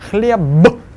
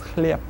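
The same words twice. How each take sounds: First: The final consonant is voiced. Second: The final consonant is voiceless. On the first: The speaker calls it wrong. "The word хлеб" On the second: The speaker calls it right. "will actually be pronounced as"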